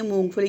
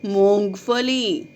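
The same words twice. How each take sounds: First: मूंगफली said as "मोफली", the ङ and ग sounds dropped; imitating a child's mistake; wrong pronunciation. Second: मूंगफली said slowly, with a clear nasal ङ and a full ग; teacher modelling the right way to say मूंगफली; correct pronunciation. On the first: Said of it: "अब कुछ बच्चे क्या करते हैं". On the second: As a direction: sound out every part of मूंगफली carefully and slowly. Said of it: "सही उच्चारण क्या है?". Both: Shown as a demonstration.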